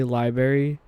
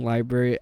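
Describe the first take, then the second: First: "library" with the first r dropped, like "lie-berry"; southern pronunciation. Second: Said in the usual way. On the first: Shown as a demonstration. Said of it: "I tend to say library". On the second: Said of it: "I'm working on saying library".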